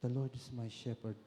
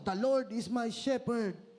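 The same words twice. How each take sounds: First: It is said softly. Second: It is shouted loudly. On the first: "Pwede rin ang mahina" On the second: "Pwede mo siyang isigaw"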